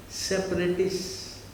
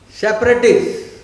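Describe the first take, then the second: First: "separatists" stretched out slowly; slow emphasis. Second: "separatists" burst out loud and high; loud emphasis. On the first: Teacher introducing the key word to students, slow emphasis. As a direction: draw out each syllable of "separatists". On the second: Teacher naming the tricksters to the class, loud emphasis. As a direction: punch out "separatists" as the verdict. Drives the key word home. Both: Real, not acted.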